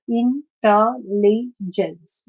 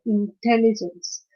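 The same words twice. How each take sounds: First: "intelligence" slowly as in-tel-li-gence; syllable by syllable. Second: "intelligence" as one word, in-TEL-ligence; second-syllable stress. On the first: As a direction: break "intelligence" into four parts. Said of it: "this is a four-syllabic word". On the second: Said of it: "T requires more stress". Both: Shown as a demonstration.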